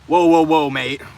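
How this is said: It is said in a British accent.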